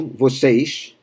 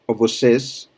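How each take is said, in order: First: Vocês ending in sh, vo-SEYSH; Rio accent. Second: Vocês ending in a clear s; vocês with a plain s at the end; standard pronunciation. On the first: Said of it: "from Rio". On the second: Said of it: "standard pronunciation". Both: Shown as a demonstration.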